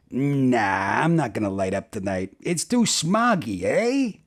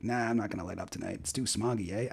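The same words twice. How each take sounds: First: Mock Canadian. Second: Quick, much softer repeat of a Canadian punchline; quick Canadian requote. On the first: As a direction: joke punchline in a Canadian voice, rising on the eh. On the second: Acted. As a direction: rattle off the mock Canadian line under your voice. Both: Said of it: "That's, like, Canadian".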